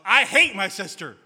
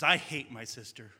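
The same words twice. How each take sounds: First: It is said in a very loud voice. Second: It is said at a normal, quiet volume.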